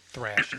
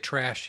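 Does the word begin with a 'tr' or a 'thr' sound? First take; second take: thr; tr. First: The word begins with a 'thr' sound. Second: The word begins with a plain 'tr' sound. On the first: The speaker calls it wrong. "He would say thrash" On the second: The speaker calls it right. "He didn't say trash"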